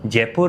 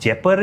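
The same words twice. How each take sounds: First: It is pronounced the Hindi way. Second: It is pronounced the Dhundari way. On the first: "is in Hindi" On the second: "is in Dhundari"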